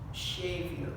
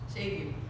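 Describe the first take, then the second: First: The first word begins with an sh sound. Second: The first word begins with a plain s sound.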